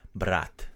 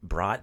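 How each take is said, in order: First: The word is pronounced as in Russian. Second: The word is pronounced as in English. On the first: "but we pronounce it brat" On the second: "spelled the same way you would spell brat. Like a bratwurst"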